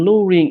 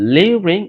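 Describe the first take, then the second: First: The first vowel has no y-glide, 'loo'. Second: The first vowel has a y-glide, 'lyoo'. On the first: "দুটো উচ্চারণই হয়" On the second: "দুটো উচ্চারণই হয়"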